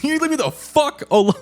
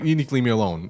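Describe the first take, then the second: First: It is yelled loudly and angrily. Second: It is said calmly, at normal volume.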